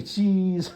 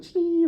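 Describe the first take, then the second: First: Said in the usual way. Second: Very high, louder squeaky cheese. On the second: Pretend. Couple saying cheese for the photographer, a squeaky very high cheese. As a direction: squeak it out for the camera. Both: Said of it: "we both say".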